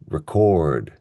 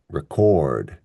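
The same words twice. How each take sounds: First: The stress is on the second syllable. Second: The same.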